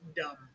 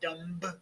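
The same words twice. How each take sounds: First: The word ends on M with no B. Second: A B sound is pronounced at the end. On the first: The speaker calls it right. "Just dumb" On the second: The speaker calls it wrong. "We don't say the B. We don't say dumb"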